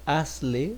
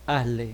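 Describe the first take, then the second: First: The z sound is pronounced fully and clearly. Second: The z sound is weakened and nearly swallowed. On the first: "that it would be the very correct way" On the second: "like you swallow a little bit the Z"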